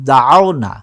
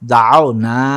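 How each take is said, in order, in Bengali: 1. শেষের স্বরধ্বনিটি ছোট ও দ্রুত। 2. শেষের স্বরধ্বনিটি টেনে লম্বা করা হয়। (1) "হরকতওয়ালা হরফকে তাড়াতাড়ি পড়িতে হয়" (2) "এখানে একটু টানতে হবে"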